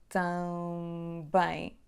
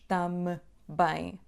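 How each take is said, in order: First: A nasal vowel leads straight into one B closure. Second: The lips close for a separate M before B. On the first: The speaker calls it right. "Há só um som bilabial aqui, que é B" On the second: The speaker calls it wrong. "Não dizemos tam bem"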